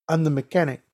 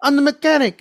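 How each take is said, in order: First: Put-on restrained Spanish-accented statement; Spanish accent, before any agitation. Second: High-pitched, agitated Spanish-accented mimicry; voice changing. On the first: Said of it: "he has a heavy Spanish accent". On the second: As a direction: push the pitch up as he gets agitated. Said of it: "his voice started changing".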